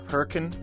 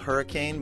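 First: It is said with the local pronunciation. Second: It is said the way it is spelled. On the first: "but it's pronounced Hurricane" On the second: "it's spelled Hurricane"

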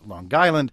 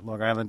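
First: A hard g links into 'Island', like 'Lon-Guyland'. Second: The g is not carried over into 'Island'.

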